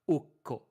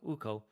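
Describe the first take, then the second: First: The k is held long with a break. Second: The k is short with no break. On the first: The speaker calls it right. "a double consonant is pronounced like it's hyphenated" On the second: The speaker calls it wrong. "you're not gonna be like, oh, Ukko"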